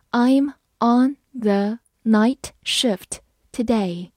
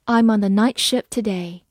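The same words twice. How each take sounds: First: Slow, clear model reading. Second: Said in the usual way. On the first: Shown as a demonstration. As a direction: read it slowly word by word. (慢速朗读) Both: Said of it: "好，慢慢来读。".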